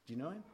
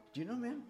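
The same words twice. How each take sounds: First: Said in the usual way. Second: Higher, insistent repeat of "him"; pressing question. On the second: Retold or imitated. Pressing Anthony about Quentin, insistent rising question. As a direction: push "him, man" up with a rising tune. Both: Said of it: "But if I would say to you".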